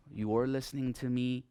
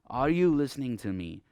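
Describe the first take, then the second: First: Statement with a falling tune at the end; "You are listening to me" said as a statement, voice dropping on "me". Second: "Are you listening to me?" asked with the voice rising to the end; rising tune. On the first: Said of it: "the falling, uh, intonation". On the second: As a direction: question with a rising tune, a bit louder. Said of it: "a rising intonation". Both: Shown as a demonstration.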